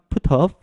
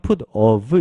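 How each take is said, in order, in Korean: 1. 빠르게 말하면 t가 부드럽게 off에 이어져요. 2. 천천히 말하면 두 단어가 따로 발음돼요. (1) "조금 빠르게 부드럽게 하면" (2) "천천히 하면 put of 이렇게 되는데요"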